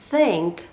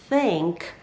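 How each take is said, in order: No difference in how they are said.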